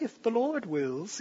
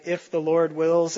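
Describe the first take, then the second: First: Slow, soft British woman impression; mock it in a drawn-out British lady's voice. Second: Said in the usual way. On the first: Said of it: "a British woman's voice".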